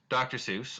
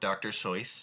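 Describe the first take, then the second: First: The surname has its common, familiar pronunciation. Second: The surname has its original family pronunciation. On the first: This is how most people say the name. The speaker calls it wrong. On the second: This is how the family actually said the name. The speaker calls it right.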